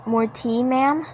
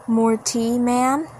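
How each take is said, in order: Both takes have the same delivery.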